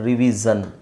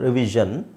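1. ಮಧ್ಯದ ವ್ಯಂಜನ zh ಧ್ವನಿ ಅಲ್ಲ. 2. ಮಧ್ಯದ ವ್ಯಂಜನ zh ಧ್ವನಿಯೇ ಆಗಿದೆ. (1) "ನೀವು ಇದನ್ನು ಉಚ್ಚಾರಣೆ ಮಾಡ್ತೀರ" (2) "ಆ ಸೌಂಡ್ ಗೊತ್ತಿರ್ಬೋದು"

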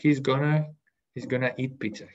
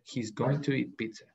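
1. 'Going to' se reduce a 'gonna'. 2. 'Going to' se dice como dos palabras completas. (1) "si ustedes lo dicen en forma hablada" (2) "La idea es que escriben"

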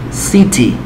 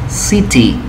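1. La t del medio es una t clara. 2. La t del medio es una t clara.

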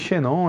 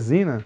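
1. O nome é lido com sons em estilo português. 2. O nome é dito com sons em estilo inglês. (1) "Falei Xenon ainda outra vez aí, mas é Zinan" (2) "realmente é Zinan"

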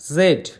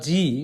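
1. অক্ষরের নামটি d ধ্বনি দিয়ে শেষ হয়। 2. অক্ষরের নামটি ee ধ্বনি দিয়ে শেষ হয়। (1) "ব্রিটিশ ও আমেরিকান উচ্চারণ অনুযায়ী" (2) "ব্রিটিশ ও আমেরিকান উচ্চারণ অনুযায়ী"

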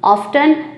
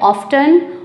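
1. बीच वाली t ध्वनि बोली जाती है। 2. बीच वाली t ध्वनि बोली जाती है।

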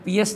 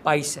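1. पहला स्वर 'ee' जैसा बोला जाता है। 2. पहला स्वर 'eye' जैसा बोला जाता है। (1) "ये वर्ड पीएस नहीं है" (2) "पाइस है"

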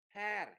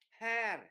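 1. Nguyên âm này được phát âm như âm 'a' mở. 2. Nguyên âm này được phát âm như âm 'a' mở.

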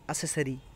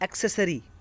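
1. इसकी शुरुआत सादे s से होती है, इसमें k की आवाज़ नहीं है। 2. इसकी शुरुआत s से पहले k की आवाज़ से होती है। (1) "ये कोई वर्ड होता ही नहीं है, इसको गलत बोला जाता है" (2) "the correct word is एक्सेसरी"

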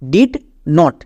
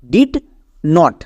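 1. দুটি আলাদা শব্দ হিসেবে বলা হয়। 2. দুটি আলাদা শব্দ হিসেবে বলা হয়।

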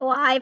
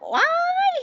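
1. พูดอย่างสงบ ด้วยน้ำเสียงธรรมดา 2. พูดด้วยน้ำเสียงจุกจิกและตะโกนโวยวาย

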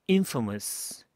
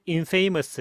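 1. 강세는 첫 번째 음절에 있어요. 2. 강세는 두 번째 음절에 있어요. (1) "첫 번째 강세 탁 들어가죠?" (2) "이게 아니라"

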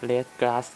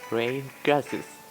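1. พูดด้วยสำเนียงไทยธรรมดาครับ 2. พูดด้วยสำเนียงอังกฤษแบบตะวันตกครับ

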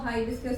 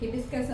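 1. ആദ്യ അക്ഷരത്തിൽ നീണ്ട 'high' സ്വരമാണുള്ളത്. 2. ആദ്യ അക്ഷരത്തിൽ ചെറിയ 'hi' സ്വരമാണുള്ളത്. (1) "ഹൈബിസ്കസ് എന്നൊക്കെ പറയും" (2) "ഹിബിസ്കസ് എന്നോ"

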